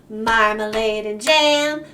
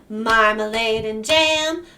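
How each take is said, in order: The two takes are said the same way.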